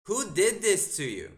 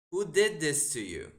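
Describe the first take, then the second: First: Louder incredulous. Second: Incredulous. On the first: Streamer repeats the question, stronger. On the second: Streamer reacts to opponent's bad move. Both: Real, not acted.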